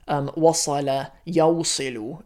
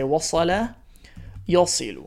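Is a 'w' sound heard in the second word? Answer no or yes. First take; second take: yes; no. First: The second word keeps the 'w' sound. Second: The second word drops the 'w' sound. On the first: The speaker calls it wrong. "rather than saying wasala yawsilu in the present tense" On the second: The speaker calls it right. "we just say"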